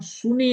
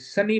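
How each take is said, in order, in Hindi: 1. पहला स्वर oo जैसा सुनाई देता है। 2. पहला स्वर uh जैसा सुनाई देता है। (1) "हम सुनी नहीं पुकारते" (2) "सनी पुकारते हैं"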